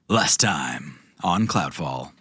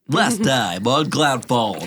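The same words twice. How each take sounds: First: It is said in a growly voice. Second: It is said in a Mikey impression.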